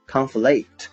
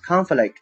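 First: The stress is on the second syllable. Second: The stress is on the first syllable. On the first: It is the verb meaning to clash or contradict. "它的动词形式读作conflict" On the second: It is the noun meaning a struggle or clash. "读作conflict 重音在前面"

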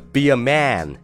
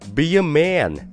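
First: The vowel runs straight into n, no glide. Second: A small glide sound comes before the final n. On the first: The speaker calls it wrong. "而不会读成be a man" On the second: The speaker calls it right. "你要去把这个腔调给带出来啊"

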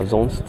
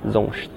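First: The s before t is a plain s. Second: The s before t sounds like sh. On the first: "德语的sonst 叫sonst" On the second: "施瓦本语里边他们念sonst"

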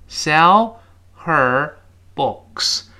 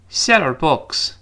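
First: Said slowly with the h in 'her' pronounced. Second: Said fast with the h dropped, 'sell' linking on. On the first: "这读得很慢" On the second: "读快了之后我们听到的是这么一个声音"

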